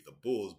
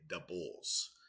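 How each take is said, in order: First: It is said in a standard American accent. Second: It is said in a strong Chicago accent. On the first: "would be the Bulls" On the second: "but we say the Bulls"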